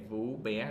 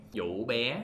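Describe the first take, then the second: First: VÚ BÉ with a rising tone on VÚ; misread name Vú Bé. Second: VŨ BÉ with a broken rising tone on VŨ; correct name Vũ Bé. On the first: Teacher repeating the passenger's misread name, VÚ with rising tone. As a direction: say VÚ with a plain sharp rise, then BÉ. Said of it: "it's written like this". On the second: Teacher correcting the name for learners, VŨ with broken rising tone. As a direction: break VŨ mid-rise, then say BÉ. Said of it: "No, it's not". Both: Shown as a demonstration.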